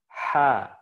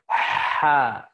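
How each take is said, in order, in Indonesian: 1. Bunyi tenggorokannya ringan dan tidak dipaksakan. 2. Bunyi tenggorokannya ditekan dan dipaksakan. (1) "Ringan aja" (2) "Jangan sampai ha. ... Kalau antum tekan, itu geser ke atas"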